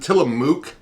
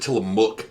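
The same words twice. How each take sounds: First: The last vowel is long, as in moo. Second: The last vowel is short, as in book. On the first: "like moo cow" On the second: "like a book"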